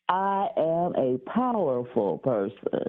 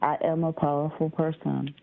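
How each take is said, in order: First: It is said forcefully, with strong energy. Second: It is said tentatively, with little energy.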